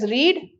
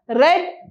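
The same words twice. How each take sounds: First: The word has its present-tense pronunciation. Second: The word has its past-tense pronunciation. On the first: The action happens now or habitually. "pronounced as read in the present tense" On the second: The action is completed. "pronounced as read as the past tense"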